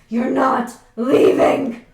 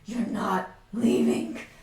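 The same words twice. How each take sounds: First: It is said at the loudest volume. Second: It is said at a medium volume.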